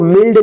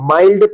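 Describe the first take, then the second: First: The vowel is a short 'i' sound. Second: The vowel is an 'eye' sound. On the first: The speaker calls it wrong. "इसको मिल्ड नहीं" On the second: The speaker calls it right. "माइल्ड पढ़ेंगे"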